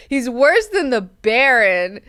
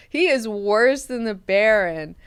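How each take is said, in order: First: Louder and slowed, every word leaned on; slow, loud verdict on the character; slow emphatic claim. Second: "He" hit first and hardest, the rest slower; "He is worse" with the weight on He; stress on HE. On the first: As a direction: drag it out with disgust. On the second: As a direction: punch the word He. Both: Shown as a demonstration. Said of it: "repeats claim with new stress".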